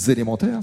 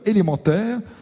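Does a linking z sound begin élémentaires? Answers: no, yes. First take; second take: yes; no. First: The word starts with a linking z sound. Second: The word starts without a linking z sound. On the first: The speaker calls it right. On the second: The speaker calls it wrong.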